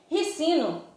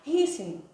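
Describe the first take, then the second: First: The stress is on the second syllable. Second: The stress is on the first syllable. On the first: The speaker calls it wrong. "a gente não pronuncia óleo de ricino" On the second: The speaker calls it right. "a gente tem que pronunciar rícino, porque o ri é acentuado"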